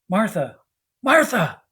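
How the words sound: It sounds upset and urgent.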